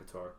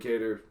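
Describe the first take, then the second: First: The surname sounds like the country Qatar. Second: The surname sounds like the word cater. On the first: The speaker calls it wrong. "not Qatar" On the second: The speaker calls it right. "is actually how you say it"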